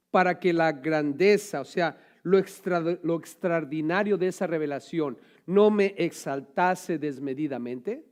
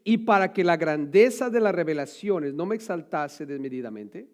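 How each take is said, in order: First: Slow, weighty reading of "Para que la grandeza"; slow emphatic reread. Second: Said in the usual way. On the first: Shown as a demonstration. Preacher rereading Paul's verse, slow emphasis. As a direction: lean on each word, slowly. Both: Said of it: "Y dice él".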